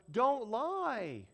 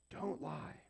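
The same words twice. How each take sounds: First: "Don't lie" high and swooping on LIE; emphatic command. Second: Soft, toned-down "Don't lie"; quiet command. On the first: Preacher drives the commandment home, "Don't lie" high and emphatic. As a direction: stretch "lie" out, high then falling. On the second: Preacher lets the commandment sink in, quiet repeat. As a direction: drop "Don't lie" softly, matter-of-fact. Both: Shown as a demonstration.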